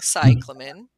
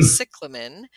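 First: The stress is on the first syllable. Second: The stress is not on the first syllable. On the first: "I've been saying cyclamen with the C-Y emphasis" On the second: "I think you're saying cyclamen"

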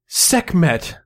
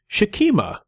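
First: The name begins with a plain s sound. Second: The name begins with an sh sound. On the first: This is the familiar modern pronunciation. "standing in their place was Sekhmet" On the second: This is the likely ancient Egyptian pronunciation. "the ancient Egyptian pronunciation was more likely Shekhmet"

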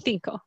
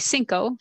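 First: It is said the Spanish way, with th. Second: It is said the Mexican way, with s.

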